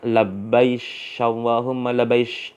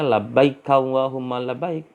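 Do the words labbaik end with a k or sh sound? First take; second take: sh; k. First: Labbaik ends with a sh sound. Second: Labbaik ends with a k sound. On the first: This is the Yemeni dialect form. "mereka bilangnya labbaish Allahumma labbaish" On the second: This is the standard form. "bukan bilangnya"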